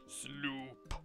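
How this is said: It is said in a deep, low voice. The speaker calls it wrong. "In a deeper voice"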